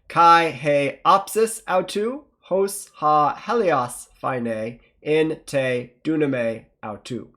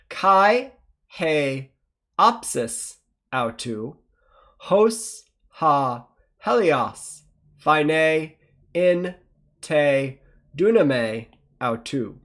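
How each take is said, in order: First: It is read faster. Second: It is read slowly.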